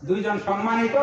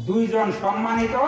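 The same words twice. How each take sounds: No difference in how they are said.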